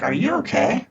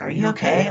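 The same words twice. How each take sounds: First: Grandma voice. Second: Said in the usual way. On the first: Retold or imitated. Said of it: "in my grandma voice". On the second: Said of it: "I got off of the grandma voice".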